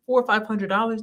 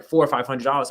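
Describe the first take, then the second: First: Higher-pitched astonished question; retold reaction, raised and incredulous; incredulous echo. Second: Said in the usual way. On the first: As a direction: repeat the price back in disbelief. Retold disbelief at cheap rent.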